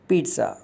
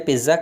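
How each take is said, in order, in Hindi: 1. बीच में z से पहले एक हल्की t ध्वनि है। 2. बीच में एक सामान्य z ध्वनि है। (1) "इसके बीच में हल्का सा टी साउंड आता है" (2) "इसे पिज़्ज़ा कहा जाता है"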